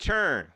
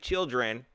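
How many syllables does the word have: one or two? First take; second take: one; two. First: The word is said in one syllable. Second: The word is said in two syllables. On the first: This is how people say it down south. The speaker calls it right. "We say churn. ... One syllable" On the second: This is how northerners say it. The speaker calls it wrong. "You don't say children"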